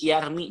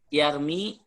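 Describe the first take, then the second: First: The final vowel is cut short. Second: The final vowel is held long.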